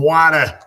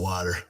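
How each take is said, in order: First: It is said in a downstate regional accent. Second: It is said in the speaker's own accent. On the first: "as they say downstate" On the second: "I call it water"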